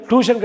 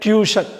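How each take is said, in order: First: "டியூஷன்" as "too-shun", no y-glide; wrong pronunciation. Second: "டியூஷன்" as "tyoo-shun"; correct pronunciation. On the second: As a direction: say "டியூஷன்" with a y-glide after t. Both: Shown as a demonstration. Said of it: "டியூஷன் கிடையாது".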